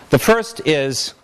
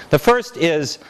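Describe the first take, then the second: Both takes have the same delivery.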